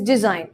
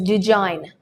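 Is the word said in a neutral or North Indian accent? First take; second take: neutral; North Indian. First: It is said in a neutral accent. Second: It is said in a North Indian accent. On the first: The speaker calls it right. "The correct pronunciation for this word is design" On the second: The speaker calls it wrong. "if you go to places like North India, ... some people tend to pronounce it as design"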